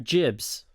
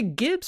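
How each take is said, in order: First: The word begins with a j sound. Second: The word begins with a hard g sound. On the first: "Do you say Gibbs or Jibs?" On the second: "Do you say Gibbs or Jibs?"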